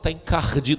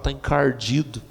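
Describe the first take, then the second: First: It is said in a soft, pretty way. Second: It is said in a blunt, forceful way.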